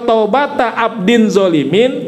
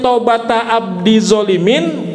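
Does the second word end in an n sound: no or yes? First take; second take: yes; no. First: The second word ends with an n sound. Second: The second word ends without an n sound. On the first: The repentance of a servant who does wrong. The speaker calls it right. "kalau taubata abdin zolimin tobatnya hamba yang zolim" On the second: The repentance of the servant, who is the wrongdoer. The speaker calls it wrong. "kalau dibacanya taubata abdi zolimin maknanya di tobatnya hamba si zolim"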